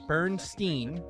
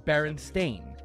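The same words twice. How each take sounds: First: The final syllable is pronounced like 'stein'. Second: The final syllable is pronounced like 'stain'. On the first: "which would be Stein" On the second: "which would be Stain"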